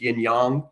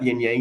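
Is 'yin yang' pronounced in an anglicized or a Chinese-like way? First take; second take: Chinese-like; anglicized. First: It is said with a more Chinese-like pronunciation. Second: It is said with an anglicized English pronunciation. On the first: The speaker calls it right. "It's yin yang" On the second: The speaker calls it wrong.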